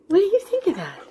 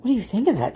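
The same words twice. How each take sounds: First: Higher-pitched question to a pet; high, coaxing dog-talk. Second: Said in the usual way. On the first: Real, not acted. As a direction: ask the dog sweetly in a higher voice.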